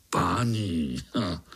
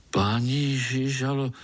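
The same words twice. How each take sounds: First: Low, scornful repeat of "Páni"; mocking echo. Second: Said in the usual way. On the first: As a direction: sneer back the word "Páni" with a snort. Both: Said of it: "mi říká páni".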